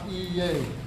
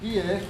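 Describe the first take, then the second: First: It is said with a y glide sound. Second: It is said without a y glide sound. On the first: The speaker calls it wrong. "not iye" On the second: The speaker calls it right. "but it's Fonka ie"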